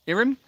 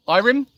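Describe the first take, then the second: First: Irim said "IH-rim"; second pronunciation. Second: Irim said "EYE-rim", higher and louder; trying a pronunciation. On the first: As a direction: say Irim with a short "ih" first. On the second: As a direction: try Irim with a long "eye" first. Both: Real, not acted. Trying two readings of viewer's name.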